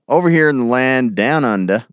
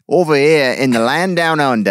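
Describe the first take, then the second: First: It is said in the speaker's usual accent. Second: It is said in an Australian accent.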